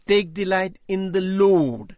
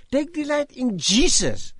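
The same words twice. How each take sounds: First: Slow, every word of "Take delight in the Lord" weighed; "Take delight in the Lord" read slowly with weight on each word; slow emphatic reading. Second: "Take delight in Jesus" pitched high, with "delight" hit hard; stress on delight. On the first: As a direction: lean on "delight" and "Lord" slowly, as if seeing it for the first time. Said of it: "One day the penny dropped". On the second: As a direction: rise up on "delight" like the point of the whole sermon. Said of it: "not, nothing else". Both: Shown as a demonstration.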